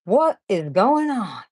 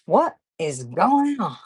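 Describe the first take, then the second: First: Slow, drawn-out puzzled question; a light imitation of Andrew's catchphrase; imitating Andrew. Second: Slow, drawn-out puzzled repeat; a light imitation of Andrew's catchphrase again; imitating Andrew. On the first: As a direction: stretch it out like Andrew does. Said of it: "Andrew says that a lot". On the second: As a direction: echo his line slowly, amused. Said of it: "I say, "Andrew, I don't know".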